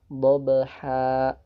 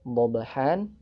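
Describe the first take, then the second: First: The word ends with a lengthened vowel, no n. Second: The word ends with a short vowel plus n. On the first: The reader stops on this word. "dipanjangkan dua harokat menjadi dhabha" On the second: The reading continues without stopping. "Dhabhan ini waqaf di huruf yang berharkat fathah tain"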